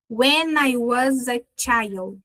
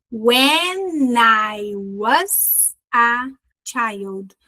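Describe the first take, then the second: First: Put-on "When I was a child" with "When I" and "was a" run together; slow but joined-up "When I was a child", linking each consonant to the next vowel; linked words. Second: Put-on "When I was a child" very slowly, word by word; slow breakdown. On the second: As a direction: stretch "When I was a child", pausing between chunks. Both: Shown as a demonstration. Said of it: "Viu as junções?".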